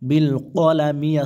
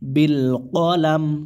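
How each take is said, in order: First: The last word ends with an 'i' vowel. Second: The last word ends on a plain 'm'. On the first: The word is read as written, without stopping. "বিল কলামি আছে" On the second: The reader stops at the end of the verse. "এখানে অকফের কারণে মিমের জেরটা সাকিন হয়ে যাবে"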